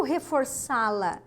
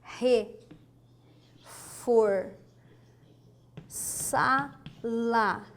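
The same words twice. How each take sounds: First: Said in the usual way. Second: "reforçá-la" very slow, long gaps between syllables. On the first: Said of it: "O que que é o". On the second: Shown as a demonstration. Teacher writing the example for students, "reforçá-la" syllable by syllable. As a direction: spell out "reforçá-la" one syllable at a time. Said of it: "Olha só".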